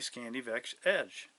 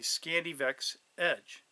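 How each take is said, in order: First: The words are said quickly and run together. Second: Each sound is said slowly and clearly. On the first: The speaker calls it wrong. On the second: The speaker calls it right.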